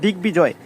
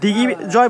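First: The word is said with a 'b' sound. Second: The word is said without a 'b' sound. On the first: The speaker calls it right. "সেই বয়ের কিন্তু আমরা উচ্চারণ করে বলছি" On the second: The speaker calls it wrong. "এখানে কিন্তু আমরা শুধু দিগ্বিজয় বলি নাই"

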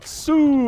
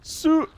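First: The sound is held as a long tone. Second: The sound is abruptly cut off short. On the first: "when I go soo" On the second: "it goes soo, and it cuts me off"

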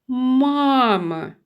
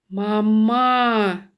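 First: The stress is on the first syllable. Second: The stress is on the second syllable. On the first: The speaker calls it right. "У слові мама перший склад вимовляється голосніше" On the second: The speaker calls it wrong. "щоб другий склад вимовлявся голосніше"

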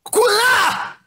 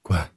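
First: It is said angrily and forcefully. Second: It is said with disappointment, after a sigh.

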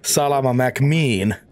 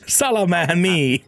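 First: The second name is said clearly as McQueen. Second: The second name is slurred into one word. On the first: The speaker calls it right. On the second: The speaker calls it wrong.

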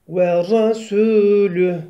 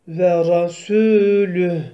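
No difference in how they are said.

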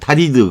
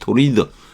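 First: The first vowel sounds like 'ah'. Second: The first vowel sounds like 'oh'. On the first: The speaker calls it wrong. "타리드, 그렇게 외우고 싶은데" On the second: The speaker calls it right. "토리드죠, 발음이"

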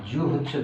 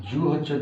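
The two takes are said the same way.

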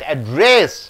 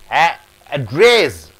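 First: The stress is on the second syllable. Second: The stress is on the first syllable. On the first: It is a verb meaning to speak to. "when you stress on rest, it becomes a verb" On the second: It is a noun meaning where someone stays. "Address means it's a noun"

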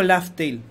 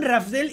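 First: The name begins with an L sound. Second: The name begins with an R sound. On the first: One dubbing actor said it this way, perhaps first. "este señor dijo Laftel" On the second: This is how everyone says the name. "todo el mundo, Raftel"

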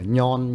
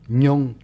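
First: The final vowel is a plain 'on' sound. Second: The final vowel is a rounded 'ong'-like sound. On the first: The speaker calls it wrong. "chứ mà nhon nha" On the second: The speaker calls it right. "nhông chứ mà nhon nha"

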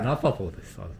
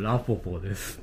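First: The name's second vowel sounds like a. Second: The name's second vowel sounds like o. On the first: The speaker calls it right. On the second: The speaker calls it wrong. "A ちゃんはまあ間違って発音してるんでしょうけど"

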